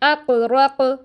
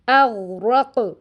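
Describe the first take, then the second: First: The second consonant is a hard q stop. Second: The second consonant is a soft gh fricative. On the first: The speaker calls it wrong. "इसको हम पढ़ते हैं" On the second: The speaker calls it right. "जैसे एक वर्ड है"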